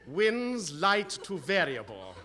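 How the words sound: It is said cheerfully, with a smile.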